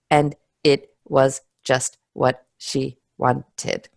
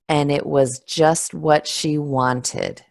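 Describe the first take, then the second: First: Each word is said separately, not linked. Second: The words run smoothly together, linked. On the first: The speaker calls it wrong. "it doesn't sound natural and it doesn't sound smooth" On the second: The speaker calls it right. "you can feel a little bit how those words are all connected together"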